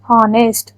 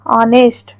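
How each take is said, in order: First: The word begins directly with a vowel sound. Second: The same.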